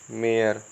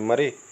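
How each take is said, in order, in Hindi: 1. स्वर लंबी 'air' वाली ध्वनि है। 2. स्वर छोटे 'a' की ध्वनि है। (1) "इसका सही उच्चारण" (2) "ये सब होते हैं गलत प्रोनाउंसिएशन"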